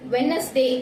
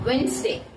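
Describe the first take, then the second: First: The middle d sound is pronounced clearly. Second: The middle d sound is left out. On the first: The speaker calls it wrong. "வெட்னஸ்டே அப்படின்னு சொல்லிட்டு நம்ம இப்ப எழுதியிருக்கோம்" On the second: The speaker calls it right. "இதனோட pronunciation வந்து நம்ம எப்படி use பண்ணணும் அப்படின்னு பார்த்தா வென்ஸ்டே"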